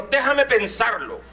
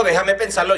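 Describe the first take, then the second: First: Slow, drawn-out thinking it over; slow, considering. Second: Said in the usual way. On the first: Retold or imitated. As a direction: stretch out Déjame like a mother weighing it. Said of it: "ella dijo". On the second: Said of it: "Cuando ella dijo".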